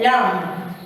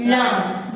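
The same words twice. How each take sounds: First: "lamb" with the final B sounded, drawn out; wrong pronounced B. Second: "lamb" ending on M, no B; silent B demo. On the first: Teacher warning the class, "lamb" wrongly ending in B. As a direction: release a B after the M in "lamb". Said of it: "Don't say lamb". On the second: Teacher modelling for the class, "lamb" with silent B. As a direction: let "lamb" finish with lips closed on M. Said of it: "You will only pronounce this". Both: Shown as a demonstration.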